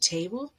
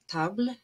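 First: It is said with the modern English vowel. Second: It is said with the older, pre-shift vowel. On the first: This is how it sounds today. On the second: This is how it sounded before the vowel shift. "how they changed from"

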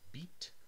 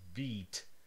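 First: The vowel is clipped short. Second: The vowel is held long. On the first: The speaker calls it right. "This first vowel is shorter" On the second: The speaker calls it wrong. "If I reversed the length, it would be really strange"

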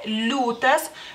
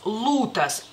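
First: The L is soft, with no i sound. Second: The L is hard, with no i sound. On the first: "la L se hace más suave" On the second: "sería como más dura la L"

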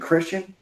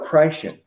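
First: The first part sounds like the ordinary 'Chris'. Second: The first part sounds like the word 'Christ'. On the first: The ordinary word for a believer. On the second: The faith is all about Christ, not oneself.

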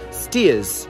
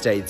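First: It is said like 'steers', with no 'th' sound. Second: It is said with a 'th' before the final s. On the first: The speaker calls it right. "It's pronounced Steers" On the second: The speaker calls it wrong. "this isn't actually pronounced Staithes"

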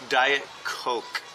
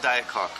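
First: The second word sounds like coke. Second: The second word sounds like cock. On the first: The speaker calls it right. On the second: The speaker calls it wrong. "not Diet Cock"

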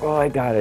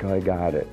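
First: The voice sounds tense and strained. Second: The voice sounds calm and relaxed.

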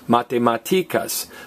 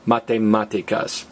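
First: The stress is on the second-to-last syllable. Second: The stress is on the third-to-last syllable. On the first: The speaker calls it wrong. "listen to math when we stress the next to last vowel" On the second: The speaker calls it right. "don't stress the next to last vowel"

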